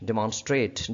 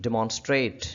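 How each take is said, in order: No difference in how they are said.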